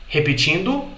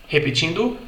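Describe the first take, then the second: Both takes have the same delivery.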